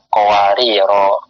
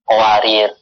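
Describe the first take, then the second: First: The word ends with a long o vowel. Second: The word ends on the consonant r. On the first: The ending matches the endings of the neighbouring verses. The speaker calls it right. "supaya pas zamhariro, tabrila, maka dia boleh dimunsharifkan qawariro" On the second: The word keeps its usual form without the final vowel. The speaker calls it wrong. "maka jadi tidak pas. Qawarir, ya kan? Karena nggak ada alifnya"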